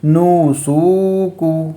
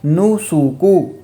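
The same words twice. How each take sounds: First: نو سو کو with every vowel stretched slowly; wrong long vowels. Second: نو سو کو with quick short vowels; correct short vowels. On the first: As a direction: show the mistake by dragging out نو سو کو. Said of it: "وہ کیسے پڑھتے ہیں آپ کو بتاتا ہوں". (نو سو کو غلط، آواز لمبی کھینچ کر) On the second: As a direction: say نو سو کو crisp and short, the right way. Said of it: "صحیح کیسے ہے؟". (نو سو کو صحیح، چھوٹی آواز سے) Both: Shown as a demonstration.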